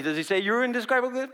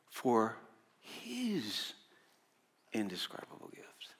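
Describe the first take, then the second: First: Said in the usual way. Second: "his" lifted and set apart, then "indescribable gift" sinking into a hushed whisper; stress on his. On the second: Shown as a demonstration. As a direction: pause before "his", lean on it, breathe the rest. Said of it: "does he say your indescribable gift? No".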